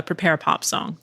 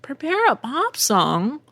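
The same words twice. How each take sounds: First: Said in the usual way. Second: High, drawn-out baffled question; incredulous echo. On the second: Acted. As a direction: repeat it slowly as a disbelieving question. Echoes the request in disbelief.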